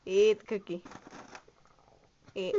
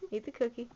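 First: Louder command to eat; playful firm order. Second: Said in the usual way. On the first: Pretend. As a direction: press the order home, louder. Repeated, firmer order to eat.

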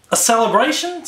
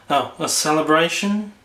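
First: Said in the usual way. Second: Sag into Eeyore's gloom; gloomy Eeyore. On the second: Acted. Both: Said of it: "That's better".

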